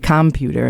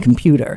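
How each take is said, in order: First: The stress falls on an unexpected syllable. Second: The stress falls on the usual syllable. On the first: The speaker is not a native English speaker. The speaker calls it wrong. "their placement of stress might be incorrect" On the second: The speaker sounds like a native English speaker. The speaker calls it right. "rather than"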